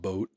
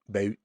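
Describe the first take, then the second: First: It is said with a standard American vowel. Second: It is said with a Gulf Coast Florida vowel.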